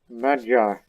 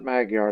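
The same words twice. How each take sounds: First: It is said with a Hungarian pronunciation. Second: It is said with a non-Hungarian, anglicized pronunciation. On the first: The speaker calls it right. "That's how you pronounce it in Hungarian" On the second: The speaker calls it wrong. "not Magyar like I did several times in the past"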